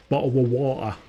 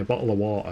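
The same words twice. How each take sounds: First: "bottle of water" in a glottal British accent; regional British accent. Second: Said in the usual way. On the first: Shown as a demonstration. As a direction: drop the Ts in "bottle of water" for a mock English accent. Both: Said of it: "all the different bottle of waters".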